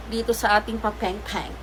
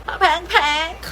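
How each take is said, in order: First: Said in the usual way. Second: Papeng-peng in a high cartoonish voice; silly high-pitched repeat of papeng-peng; playful echo. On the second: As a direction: squeak out papeng-peng with a rising end. Playful echo of her own word.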